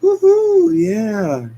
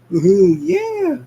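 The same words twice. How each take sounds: First: High, loud woohoo falling; brawl whoop. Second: High, loud and slow woohoo; party whoop. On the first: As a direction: cheer wildly mid-fight. Sonic cheering in brawl. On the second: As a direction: stretch out a wild party cheer. Sonic cheering while dancing. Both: Acted.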